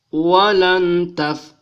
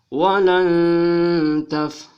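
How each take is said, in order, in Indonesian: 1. Bunyi n pendek tanpa dengung sengau. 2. Bunyi n ditahan dengan dengung sengau. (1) "tidak boleh dibaca walan taf" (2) "dia harus berdengung walan taf"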